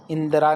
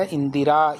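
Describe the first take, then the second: First: इंदिरा said as in-da-raa; wrong pronunciation. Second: इंदिरा said as in-di-raa; correct pronunciation. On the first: Teacher repeats the mistake to reject it, wrong pronunciation. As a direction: drop the i after d in इंदिरा. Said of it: "इंदिरा नहीं होता". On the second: Teacher explains the vowel sign, correct pronunciation. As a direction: put a clear i after d in इंदिरा. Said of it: "द के ऊपर छोटी ई". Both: Shown as a demonstration.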